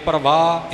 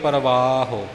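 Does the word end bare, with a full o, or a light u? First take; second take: bare; light u. First: The word ends bare, with no final vowel. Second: The word ends with a light u sound. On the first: The speaker calls it wrong. "इउं सीधा नहीं बोलना" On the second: The speaker calls it right. "औंकड़ां दा उच्चारण होवेगा"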